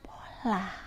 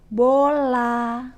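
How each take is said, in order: First: The word is said in a whisper. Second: The word is drawn out and lengthened. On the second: "teknik perpanjangan"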